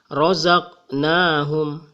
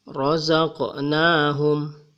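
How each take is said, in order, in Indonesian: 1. Bunyi q tidak memiliki pantulan. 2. Bunyi q memiliki pantulan kecil. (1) "tidak boleh kita membaca razaqnahum, tetapi bergetar suara di sini" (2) "itu pun bergetarnya tidak terlalu besar ya. Dibaca"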